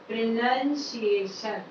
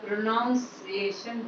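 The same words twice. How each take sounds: First: The second syllable sounds like nun. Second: The second syllable sounds like noun. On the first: The speaker calls it right. "Correct इसका जो उच्चारण है" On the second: The speaker calls it wrong. "प्रोनाउन वाला sound लेकर के"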